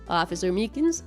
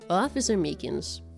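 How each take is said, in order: First: The voice is lighter, without much rasp or depth. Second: The voice is lower, raspier and huskier. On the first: The speaker calls it wrong. "I can't do my Edgeworth voice today. It's supposed to be a little raspy and husky and low, but I'm not doing it properly" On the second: The speaker calls it right. "Let me drink and try to get there"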